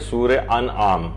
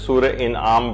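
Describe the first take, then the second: First: The second word begins with an 'a' vowel. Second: The second word begins with an 'i' vowel. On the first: The speaker calls it right. "ये जेर के साथ नहीं है बल्कि ये जबर के साथ है" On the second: The speaker calls it wrong. "लोग इसे सूरह इनआम पढ़ते हैं"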